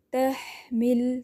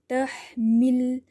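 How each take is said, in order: First: تحمل drawn out very slowly, ha held still and clear; slow drawn-out recitation. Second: تحمل drawn out with a clear ee sound on the mim; slow recitation, clear ee. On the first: Teacher shows pupils: slow تحمل with clear silent ha. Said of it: "اس طرح پڑھیے گا۔". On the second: Teacher models تحمل again with the ee on mim. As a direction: stretch تحمل slowly, mim with a clean ee vowel. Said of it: "ای کی آواز آتی ہے۔". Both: Shown as a demonstration.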